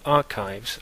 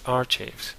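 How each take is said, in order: First: It is said with standard English sounds. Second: It is said with Spanish-style sounds. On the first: "words like archives" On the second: "usually pronounced by students as"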